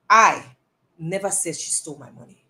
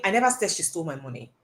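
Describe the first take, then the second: First: Single out "I" before the rest; stress on I. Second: Said in the usual way. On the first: Shown as a demonstration. Coach comparing two meanings, stress on "I". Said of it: "does it mean the same thing". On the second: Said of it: "If I'm saying".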